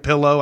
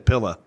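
First: The word ends with a clear oh sound. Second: The word ends with a short uh sound. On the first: The speaker calls it right. "instead of saying pillow" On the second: The speaker calls it wrong. "It's an O and I put an A on it"

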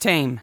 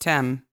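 First: The vowel is long, rhyming with 'same'. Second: The vowel is short, rhyming with 'hem'. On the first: The speaker calls it right. "Without the S, it's Tame" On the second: The speaker calls it wrong. "I thought it was all just Tem"

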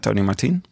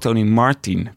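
First: The stress in Martin is on the last syllable. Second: The stress in Martin is on the first syllable.

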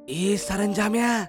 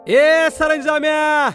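First: It is said in a low, quiet voice. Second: It is shouted very loudly and angrily. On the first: "कमी आवाजात बोलतो" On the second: "जोर जोरात ओरडायला लागतो"

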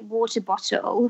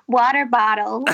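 First: It is said in a British accent. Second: It is said in an American accent. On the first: "he just loved it when I'd say water bottle" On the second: "Try it again as American"

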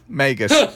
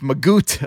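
First: The word ends with an s sound. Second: The word ends with a t sound. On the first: "we're yeshivish, so it's magus"

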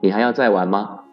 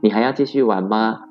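First: It sounds harsh, blaming and accusing. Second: It sounds meek, hesitant and pleading.

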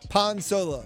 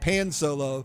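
First: Pan is pronounced with a Spanish vowel. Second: Pan is pronounced with an English vowel. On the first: "I'm using the Spanish pronunciation" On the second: "if you're reading it in English, it would look like pan solo"

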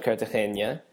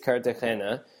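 First: The ending has a 'nya' sound. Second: The ending has a plain 'na' sound. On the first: The speaker calls it wrong. "not Cartagena. There's no Enya" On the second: The speaker calls it right. "it is Cartagena"

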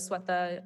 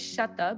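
First: The name is said with a general Indian pronunciation. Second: The name is said with a Bengali pronunciation. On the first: "Indian pronunciation is Swetha" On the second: "I pronounce it Bengali style"

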